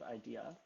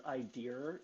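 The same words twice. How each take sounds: First: Said in the usual way. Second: "idea" with an R on the end; dad's "idea". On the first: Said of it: "instead of idea". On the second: Retold or imitated. Imitating dad, "idea" ending in an R. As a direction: say "idea" as "eye-deer". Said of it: "He says idea instead of idea".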